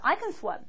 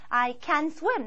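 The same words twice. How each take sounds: First: The word can is said short and reduced. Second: The word can is said fully and clearly. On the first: The speaker calls it right. "편하게 얘기할 때 줄여서 얘기합니다" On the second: The speaker calls it wrong. "이렇게 하지 않고요"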